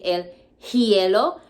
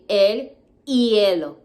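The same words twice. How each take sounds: First: An h sound is heard before hielo. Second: No h sound is heard before hielo. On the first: The speaker calls it wrong. "so we don't say el hielo" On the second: The speaker calls it right. "like the H is not even there"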